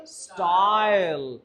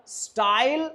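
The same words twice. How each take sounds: First: स्टाइल slow, stretched ai falling; slow falling model. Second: स्टाइल raised with a rising ai; rising model. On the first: Teacher slowly models the word for students. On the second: Teacher models the word for students. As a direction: lift स्टाइल high. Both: Shown as a demonstration. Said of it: "आई को बोलो आई".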